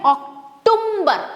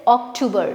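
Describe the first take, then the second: First: An m sound is added before the b. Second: No m sound is added before the b. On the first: The speaker calls it wrong. "जो कि wrong है। भाई अक्टूबर यहाँ पे एम तो है ही नहीं" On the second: The speaker calls it right. "The right right pronunciation of this word is October"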